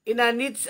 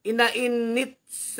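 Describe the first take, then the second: First: Inanits read as a quick first guess; first try at the name inanits; first misread. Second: Inainits sounded out slowly, syllable by syllable; corrected reading of Inainits; slow careful reread. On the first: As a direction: tries inanits, unsure. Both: Shown as a demonstration.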